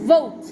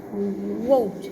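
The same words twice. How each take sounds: First: Vote said right, louder; correct V. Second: Vote said as woat with rounded lips, no lip bite; Vote mispronounced with W; wrong W sound. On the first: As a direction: bite the lip for the V of vote. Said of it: "made with the lip biting position". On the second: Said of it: "Be careful not to do this". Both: Shown as a demonstration.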